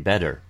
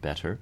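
First: The middle consonant is a quick voiced tap. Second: The middle consonant is a full voiceless stop. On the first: "that I say a D, I say better" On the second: "where I'm clearly making a voiceless stop there"

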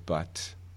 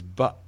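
First: The final t is released with a puff of air. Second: The final t is replaced by a glottal stop. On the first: "The aspirated form is" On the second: "the glottal version is"

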